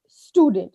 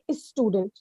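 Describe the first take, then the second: First: The word starts directly with the 'st' sound. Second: An extra vowel sound comes before the 'st'. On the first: The speaker calls it right. "It's student. It's exactly like that" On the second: The speaker calls it wrong. "Many people say is student"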